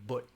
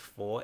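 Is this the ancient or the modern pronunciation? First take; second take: ancient; modern. First: It uses the ancient pronunciation. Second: It uses the modern pronunciation. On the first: "for a very ancient pronunciation of that character ... it would be pronounced but" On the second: "it's not pronounced for"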